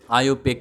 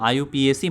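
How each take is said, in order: First: The final letters are said as one syllable. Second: The final letters are spelled out one by one. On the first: The speaker calls it right. "इसका pronounce आईयूपीएक किया जाता है" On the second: The speaker calls it wrong. "आईयूपीएसी मत बोलना"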